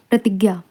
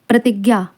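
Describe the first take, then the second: No difference in how they are said.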